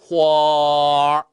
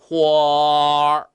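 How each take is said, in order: Both takes have the same delivery.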